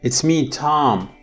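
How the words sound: It runs on as one single phrase. The speaker is talking to Tom. "there is a single intonation group"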